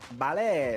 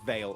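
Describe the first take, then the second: First: The name is said with a Spanish-style pronunciation. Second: The name is said like the English word veil. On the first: This is the mistaken version used until now. The speaker calls it wrong. "We've been doing a Spanish twist on that name this entire time" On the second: This is the corrected version of the name. The speaker calls it right. "and then there's just Veil"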